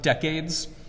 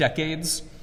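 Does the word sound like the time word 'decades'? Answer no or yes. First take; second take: yes; yes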